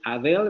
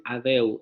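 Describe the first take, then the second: First: "[name]" ending on a clear L; "[name]" with a full final L; standard [name]. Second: "[name]" ending in U, like "Adeu"; vocalized L. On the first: Teacher demonstrating the standard "[name]". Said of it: "En lugar de decir [name]". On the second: Teacher showing the Australian "[name]". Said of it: "van a decir [name]". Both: Shown as a demonstration.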